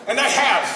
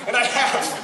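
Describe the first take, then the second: No difference in how they are said.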